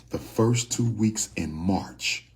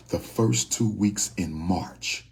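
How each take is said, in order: Both takes have the same delivery.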